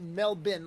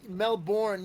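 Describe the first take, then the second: First: The word sounds close to Melvin. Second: The word does not sound like Melvin. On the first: The speaker calls it right. "you say Melbourne, like Melvin" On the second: The speaker calls it wrong. "you don't say Melbourne"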